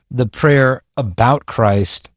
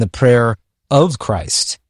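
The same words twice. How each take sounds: First: Slow, deliberate emphasis on "about"; stress on ABOUT. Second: Slow, deliberate emphasis on "of"; stress on OF. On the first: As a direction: set "about" apart as the key word. Contrasts "about" with "of. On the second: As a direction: set "of" apart as the key word. Contrasts "of" with "about. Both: Real, not acted.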